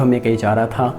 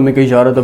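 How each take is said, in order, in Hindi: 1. यह धीरे, आराम से बोला गया है। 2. यह झटके से और तेज़ बोला गया है। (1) "मतलब थोड़े नॉर्मल अंदाज में" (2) "ऐसे ऐसे नहीं कि एकदम"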